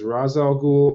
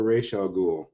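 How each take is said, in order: First: Ra's said as "Raz"; Raz pronunciation. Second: Ra's said as "Raysh"; Raish pronunciation. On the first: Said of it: "a lot of debate over whether". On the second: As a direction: say Ra's with "ay" and a final "sh". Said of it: "says that it's Raish". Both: Shown as a demonstration.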